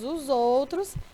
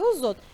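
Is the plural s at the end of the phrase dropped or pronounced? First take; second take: pronounced; dropped. First: The final plural s is pronounced. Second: The final plural s is dropped.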